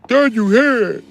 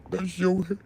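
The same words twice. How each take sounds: First: High, loud mocking yell of the same line. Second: High, soft mocking squeak. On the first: Streamer yelling a chat commenter's line back in mock voice. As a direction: shout it back as a sneering caricature. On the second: Streamer mimicking a chat commenter, high and mocking. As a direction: toss it off in a silly voice. First, softer take.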